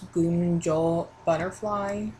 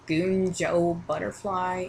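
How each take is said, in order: First: The name is said with its standard pronunciation. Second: The name is said with a nonstandard pronunciation. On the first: This is the form the speaker knows is correct. The speaker calls it right. "even though I know it's" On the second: This is the form the speaker picked up early and prefers. The speaker calls it wrong. "I obviously want to call him this"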